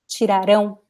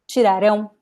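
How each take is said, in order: No difference in how they are said.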